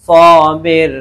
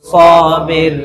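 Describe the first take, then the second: Both takes have the same delivery.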